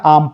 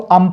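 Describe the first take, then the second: First: The vowel is a long aa sound. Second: The vowel is a short uh sound. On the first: "बिल्कुल गलत हो जाएगा" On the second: "इसको अम पढ़ेंगे या आम पढ़ेंगे, बिल्कुल गलत हो जाएगा"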